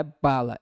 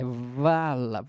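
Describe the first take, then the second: First: Bala with a clear b sound; bala, start on a crisp b. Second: Vala slowly, the v stretched out; vala, lean on the v; slow v sound. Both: Shown as a demonstration. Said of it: "agora a gente não tem o b".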